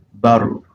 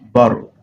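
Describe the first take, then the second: First: The middle T is a quick tapped R-like sound. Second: The same.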